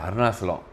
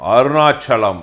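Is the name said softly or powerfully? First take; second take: softly; powerfully. First: The name is said softly and flatly. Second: The name is said forcefully with stylish flair. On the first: The title sounds weak. The speaker calls it wrong. "அருணாசலம்ன்னு ரொம்ப சாஃப்ட்டா இருக்கு sir" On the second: The title sounds great. The speaker calls it right. "அவரு சொல்ற விதம் இருக்குல்ல. அவரோட ஸ்டைல்னு ஒண்ணு இருக்கு"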